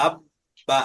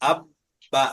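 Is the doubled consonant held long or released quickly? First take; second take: held; held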